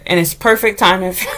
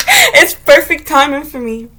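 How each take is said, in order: First: Laughing. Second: Said in the usual way. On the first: Real, not acted.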